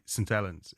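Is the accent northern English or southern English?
northern. It is said with a northern English accent. The speaker calls it right. "it's a northern sport"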